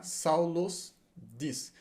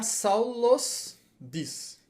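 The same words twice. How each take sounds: First: Saulos diz, bem devagar, marcando o os; slow Saulos. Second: Saulos, o "os" final bem marcado. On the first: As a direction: estique "Saulos diz", com calma. (Saulos pausado, terminação os clara) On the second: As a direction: termine "Saulos" com o som de s. (Saulos devagar, marcando a terminação os) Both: Shown as a demonstration. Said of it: "Tem que terminar com os".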